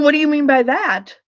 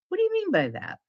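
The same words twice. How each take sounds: First: The question sounds defensive and confrontational. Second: The question sounds open and genuinely curious. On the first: The speaker feels attacked. The speaker calls it wrong. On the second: The speaker genuinely wants to understand. The speaker calls it right.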